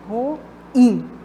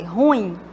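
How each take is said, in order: First: The stress is on the last syllable. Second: The stress is on the first syllable. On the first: The speaker calls it right. "é uma oxítona, porque a sílaba tônica está na última" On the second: The speaker calls it wrong. "como se fosse paroxítona"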